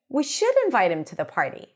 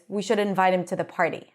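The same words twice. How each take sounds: First: Should is higher in pitch. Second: No word gets extra pitch or length. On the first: Someone else doubts that he should be invited. "emphasizing should by going higher in pitch" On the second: It simply shares an idea. "the normal way is"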